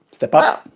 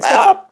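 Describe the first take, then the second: First: Said in the usual way. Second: Very high coaxing voice; high singsong pet voice; high pet talk. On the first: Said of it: "pet-talk contrast". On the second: Real, not acted. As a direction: squeak the command up high to the bird. Coaxing the bird onto shoulder.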